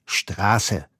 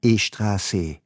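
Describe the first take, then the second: First: Straße with no vowel before the schtr; correct German Straße. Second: E-Straße with a short e before the S; Farsi-style E-Straße. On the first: Policeman shakes his head at the student, clean Straße. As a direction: correct him flatly: Straße. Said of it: "Er schüttelt seinen Kopf und sagt". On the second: Smiling student repeats to the policeman, E-Straße with an added e. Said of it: "Ich lächle ihn an und wiederhole". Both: Retold or imitated.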